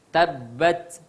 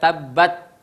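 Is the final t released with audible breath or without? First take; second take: with breath; without. First: The final t ends with an audible breath release. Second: The final t has no audible breath release. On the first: The speaker calls it right. "ada keluar napas" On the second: The speaker calls it wrong. "jangan sekedar tabbat"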